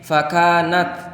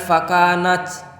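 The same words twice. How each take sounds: First: The final t has only a slight hiss. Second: The final t is hissed heavily, like ch. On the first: The speaker calls it right. "Ada sedikit desiran tapi tidak berubah menjadi C" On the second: The speaker calls it wrong. "Jangan fakanat"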